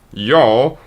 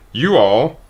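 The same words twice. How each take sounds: First: "y'all" run together as one syllable; contracted form. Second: "You all" as two separate full words; full form spelled out. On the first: Explaining to viewers, a quick one-syllable "y'all". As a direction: clip "y'all" into a single quick syllable with a slight rise. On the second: Explaining to viewers, a careful full "You all". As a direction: say "You all" slowly and fully, a small rise on "You". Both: Shown as a demonstration. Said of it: "Y'all and everyone is you guys".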